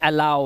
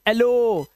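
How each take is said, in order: First: The word ends with an 'ow' sound. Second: The word ends with an 'oh' sound. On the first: It breaks the usual spelling rule. The speaker calls it right. "लेकिन ये अलाउ है" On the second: It follows the usual spelling rule. The speaker calls it wrong. "जबकि होना चाहिए"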